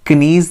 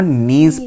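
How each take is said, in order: First: The word begins with a pronounced k sound. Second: The word begins with no k sound. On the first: The speaker calls it wrong. "कनीज नहीं पढ़ना है हम लोगों को" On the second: The speaker calls it right. "के silent होता है यहाँ पे।"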